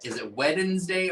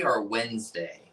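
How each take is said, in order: First: "Wednesday" as Wed-ens-day, D sounded; Wednesday as spelt. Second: Said in the usual way. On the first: Shown as a demonstration. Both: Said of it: "Is it Wednesday or Wednesday?".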